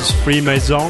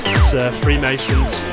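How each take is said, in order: First: The name is said with a French accent. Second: The name is said with an English accent.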